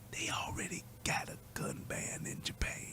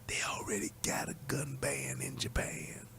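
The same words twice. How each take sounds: First: It is whispered. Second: It is said in a normal voice.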